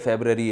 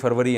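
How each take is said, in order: First: It is said as february, with a b sound. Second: It is said as farvari, with a v sound. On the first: "English में ... फेबररी है" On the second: "Urdu में जनवरी फरवरी है ना"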